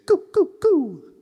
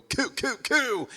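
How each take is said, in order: First: High, loud sung "coo, coo, coo" with round lips; sung, hoot each "coo" short, the last one held; sung, narrow hooty vowels. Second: High "coo, coo, coo" with an overdone harsh K; too harsh. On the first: Sung, coach modelling small vowels for singers, narrow hooty "coo, coo, coo". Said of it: "narrow vowels". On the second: Coach showing what Americans would wrongly do, "coo, coo, coo" too harsh. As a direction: hit each "coo" with a puffed, hard American K. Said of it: "make sure it's not too harsh". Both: Shown as a demonstration.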